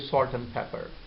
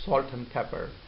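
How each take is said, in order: First: Some sounds in the phrase are dropped. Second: The same.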